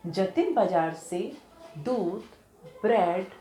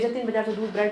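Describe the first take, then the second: First: There is a short pause after दूध. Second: There is no pause after दूध. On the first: The speaker calls it right. "थोड़ा रुके रुक के बोला" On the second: The speaker calls it wrong. "ऐसे नहीं बोलेंगे"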